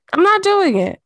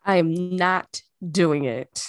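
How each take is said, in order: First: Loud, high, stubborn no; emphatic refusal. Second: Said in the usual way. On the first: Real, not acted. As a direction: put your foot down, loud and high. Refusing to turn heat on.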